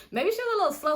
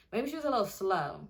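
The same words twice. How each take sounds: First: High, loud restatement; emphatic correction. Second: Said in the usual way. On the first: Real, not acted. Storyteller lands on a politer word, high and emphatic. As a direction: raise the pitch and volume as if landing on the right word. Repeats replacement line after "That's it.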